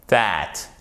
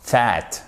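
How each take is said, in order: First: Tongue between teeth to begin "that"; correct TH. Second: "that" with the TH said wrongly, as a French learner might; mispronounced TH. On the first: Teacher showing the correct word, voiced TH. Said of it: "c'est that". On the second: Teacher showing what not to say, faulty TH. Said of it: "c'est pas that". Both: Shown as a demonstration.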